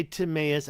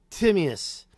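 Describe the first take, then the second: First: "Timaeus" stressed on a long AY in the middle; rejected pronunciation. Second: "Timaeus" punched on TIM, short i; preferred pronunciation. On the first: Streamer showing what they don't say, "Timaeus" as tim-AY-us. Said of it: "I don't say Timaeus". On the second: Streamer showing their own way, "Timaeus" as TIM-ee-us. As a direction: say "Timaeus" as TIM-ee-us, first syllable stressed. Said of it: "I'm gonna say it now". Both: Shown as a demonstration.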